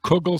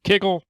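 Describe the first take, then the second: First: The first vowel sounds like 'oo'. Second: The first vowel sounds like 'ih'. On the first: "Some people pronounce it kugel" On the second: "Some people pr- pronounce it kiggle"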